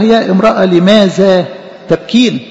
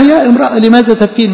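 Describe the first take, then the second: First: Said in the usual way. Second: Higher, pressing call of يا امرأة with a stress on يا; urgent angel's call. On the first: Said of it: "فقال لها". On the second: Shown as a demonstration. Angel pressing the weeping woman, raised and urgent. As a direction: press the question home with a raised voice. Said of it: "بيقول لها".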